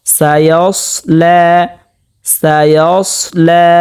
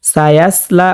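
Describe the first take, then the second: First: Slow সায়াসলা with a thick, rounded s; recited সায়াসলা, heavy s, long final vowel; heavy Sad, stretched. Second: Quick সায়াসলা with a light, thin s like sin; spoken, unstretched সায়াসলা with a plain s; wrong thin S. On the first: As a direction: thicken the second s of সায়াসলা and hold লা one beat. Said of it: "সৎকে মোটা করতে হবে". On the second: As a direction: say সায়াসলা with light s and open a vowels. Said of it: "সিনের উচ্চারণ হয়ে যাবে". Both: Shown as a demonstration.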